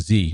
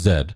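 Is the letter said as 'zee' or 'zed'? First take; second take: zee; zed. First: It is said the American way, 'zee'. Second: It is said the British way, 'zed'.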